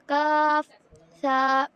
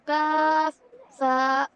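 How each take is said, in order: No difference in how they are said.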